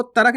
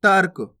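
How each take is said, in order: First: तर्क split as "ta-rak"; wrong full "ra". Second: तर्क as one firm syllable, "tark"; half "r" in तर्क. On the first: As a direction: say तर्क with a vowel after r, "tarak". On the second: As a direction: join r straight to k in तर्क. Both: Shown as a demonstration. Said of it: "आपको तर्क नहीं पढ़ना".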